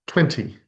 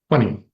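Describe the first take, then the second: First: Every sound is pronounced carefully and fully. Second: The middle t is dropped, rhyming with funny. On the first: "in very careful speech" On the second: "it rhymes with the word funny"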